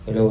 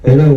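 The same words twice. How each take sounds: First: The amplified voice is quiet and soft. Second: The amplified voice is loud with strong echo. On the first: "Hinaan natin. ... Diba mahina lang siya?" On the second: "Nalakasan ko. ... Grabe, ang lakas ng echo"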